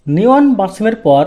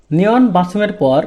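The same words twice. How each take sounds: The two takes are said the same way.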